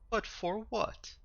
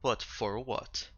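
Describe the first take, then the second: First: The question sounds curious and genuinely questioning. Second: The question sounds menacing, especially at the end. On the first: The speaker simply wants to know. The speaker calls it right. "It was very questioning tone. ... that was better" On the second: The speaker seems to be threatening. The speaker calls it wrong. "sounded a lot more menacing at the end than I wanted it to be"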